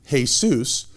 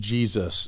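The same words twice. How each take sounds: First: The name is pronounced with Spanish sounds. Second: The name is pronounced with English sounds. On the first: "the Spanish language pronounces his name Jesus" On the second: "we pronounce it Jesus in English"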